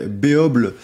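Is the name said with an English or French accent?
French. It is said with a French pronunciation. "si vous êtes un bon franchouillard"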